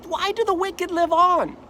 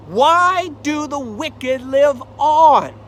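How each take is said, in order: First: Job's pleading question. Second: Anguished cry. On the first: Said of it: "He says". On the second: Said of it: "Why does bad things happen". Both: Acted.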